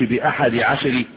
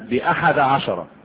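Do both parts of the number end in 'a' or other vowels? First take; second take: other vowels; a vowel. First: The two parts do not both end in a. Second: Both parts of the number end in a. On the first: The speaker calls it wrong. "ما تقولش بأحد عشر، لا" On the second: The speaker calls it right. "لأنها مبنية على إيه؟ على فتح الجزئين"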